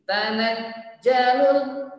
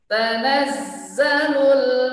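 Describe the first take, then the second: First: The middle consonant is stopped, like a j. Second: The middle consonant flows, like a buzzing z. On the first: The speaker calls it wrong. "Kalau tertahan suaranya nanti terkesan huruf jim" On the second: The speaker calls it right. "tapi ngalir"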